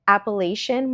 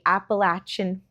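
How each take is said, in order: First: It uses the speaker's long-held outsider pronunciation. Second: It uses the pronunciation locals of the region use. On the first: This is how the speaker always said it. "I have pronounced it Appalachian my entire life" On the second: This is how people from the area say it. "people from the area call it Appalachian. So I'm trying to do that now"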